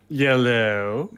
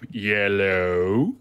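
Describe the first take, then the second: First: It is said in his normal voice. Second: It is said in a Homer Simpson voice.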